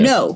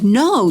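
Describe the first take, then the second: First: The word is said flatly, as a firm command. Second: The word is said with pleading, emotional feeling. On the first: The speaker demands obedience because of authority. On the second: The speaker is desperately trying to save someone.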